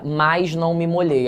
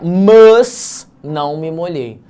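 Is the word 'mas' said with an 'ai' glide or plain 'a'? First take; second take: ai glide; plain a. First: 'Mas' is said with an 'ai' glide, like 'mais'. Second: 'Mas' is said with a plain 'a', no glide. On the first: It is the natural spoken form. The speaker calls it right. "quando vai falar mais" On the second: It sounds artificial, following the spelling. The speaker calls it wrong. "eu tenho que falar mas"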